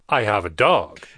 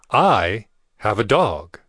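First: The word 'dog' is stressed. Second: The word 'I' is stressed.

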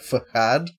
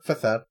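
First: The word is said with a mock-Spanish accent. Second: The word is said in a plain English way. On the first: The speaker calls it wrong. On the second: The speaker calls it right.

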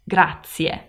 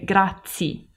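First: The word ends with two distinct vowel sounds. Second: The word ends with a single vowel sound. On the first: The speaker calls it right. "you have to pronounce the two vowel sounds" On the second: The speaker calls it wrong. "people say grazie with just one vowel sound at the end"

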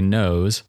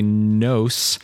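First: The final sound is a buzzing Z. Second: The final sound is a hissing S. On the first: "instead of a Z sound" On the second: "pronounce the S at the ends of words or in the middle of words as a S"

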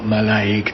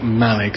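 First: The stress is on the second syllable. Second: The stress is on the first syllable. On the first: The speaker calls it wrong. "not Malaig" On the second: The speaker calls it right. "generally it's the first syllable, like Malig"

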